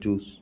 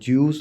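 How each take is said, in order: First: No y sound comes before the vowel. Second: A y sound comes before the vowel. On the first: The speaker calls it right. "जूस होता है" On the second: The speaker calls it wrong. "वो गलत होता है"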